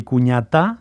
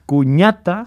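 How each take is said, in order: First: Cuñatá slowly, stressed on the last syllable; cuñaTÁ for the feminine; final stress. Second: Cuñata slowly, stressed on ña; cuÑAta for the masculine; penultimate stress. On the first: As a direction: put the weight on the final á of cuñatá. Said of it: "sería cuñada". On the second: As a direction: put the weight on the middle syllable of Cuñata. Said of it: "sería cuñado". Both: Shown as a demonstration.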